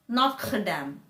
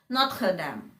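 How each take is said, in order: No difference in how they are said.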